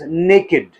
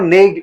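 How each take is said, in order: First: The word is said as two syllables, 'nay-kid'. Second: The word is said as one syllable, 'nakd'. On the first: The speaker calls it right. "It is नेकेड" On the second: The speaker calls it wrong. "It is not नेक्ड"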